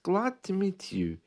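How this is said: The D in glad is barely heard. "The D almost doesn't exist"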